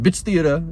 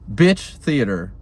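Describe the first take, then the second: First: The two words run together without a pause. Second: There is a pause between the two words. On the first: The word is used as an aggressive insult. The speaker calls it wrong. "You can't just be like, ... okay, well that's aggressive" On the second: The word is used as a friendly article. The speaker calls it right. "like that pause right there"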